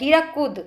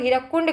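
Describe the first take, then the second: First: The name ends in 'kud' with no 'n'. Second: The name ends in 'kund' with an 'n'. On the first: This is how local people say it. The speaker calls it right. "उन लोग बोलते हैं हीराकुद" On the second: This is how outsiders say it. The speaker calls it wrong. "हम लोग हीराकुंड का उच्चारण करते हैं"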